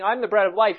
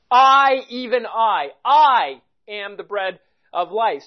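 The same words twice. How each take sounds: First: Said in the usual way. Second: Each "I" loud and stretched, with pauses; slow, emphatic "I", then the rest measured; stress on I. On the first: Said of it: "he's not merely saying". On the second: Shown as a demonstration. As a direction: hammer every "I", slowly and deliberately. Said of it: "that's the point of emphasis".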